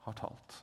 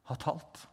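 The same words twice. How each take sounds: First: "har talt" whispered, soft and low. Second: Said in the usual way. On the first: Shown as a demonstration. Preacher repeating "har talt" in a reverent whisper. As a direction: breathe "har talt" in a hush. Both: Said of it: "Gud har talt".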